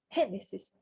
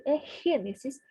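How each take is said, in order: First: Gênesis with its first syllable pushed hard; stressed syllable. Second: Gênesis said the Spanish way, first syllable stressed, G like a throaty h. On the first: Teacher stresses Gênesis to show the tonic syllable, a firm push. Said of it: "a que dá mais impulso". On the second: Teacher models Gênesis for Brazilian learners, clear stress on the first syllable. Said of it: "marcar a sílaba tônica". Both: Shown as a demonstration.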